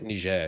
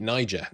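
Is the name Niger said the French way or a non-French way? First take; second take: French; non-French. First: The name is pronounced the French way. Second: The name is pronounced a non-French way. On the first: The region is treated as French-controlled. The speaker calls it wrong. "that's the French way of pronouncing it" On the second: The region is not treated as French-controlled. The speaker calls it right. "so we're going to make it Niger"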